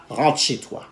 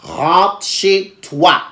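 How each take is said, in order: First: Low, soft retold order; quiet dismissal. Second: Very slow, word by word; slow, spelled-out order. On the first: Telling her date to leave, quiet low dismissal. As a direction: send him off softly and low. Sends date home, first take. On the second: Retold or imitated. Telling her date to leave, very slow emphatic order. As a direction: stretch each word with gaps between.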